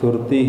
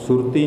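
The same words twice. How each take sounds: First: The u vowel is said short and quick. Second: The u vowel is drawn out long. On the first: The speaker calls it right. "औंकड़ की आवाज़ छेती निकलती है, इस करके इनू सुरती ही उच्चारण करांगे" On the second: The speaker calls it wrong. "सुरती नहीं कहना"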